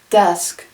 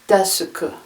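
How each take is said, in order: First: It is said with no added vowels. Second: It is said with extra vowels added.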